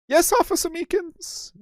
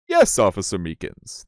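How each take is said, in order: First: The judge's voice is not achieved. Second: It is said in the judge's voice.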